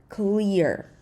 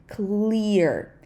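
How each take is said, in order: The two takes are said the same way.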